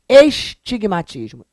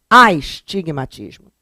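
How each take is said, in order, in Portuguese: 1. A palavra começa com som de 'e'. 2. A palavra começa com som de 'a'. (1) "Isso não existe" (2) "É astigmatismo"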